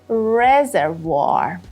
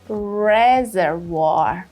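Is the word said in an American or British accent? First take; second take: American; American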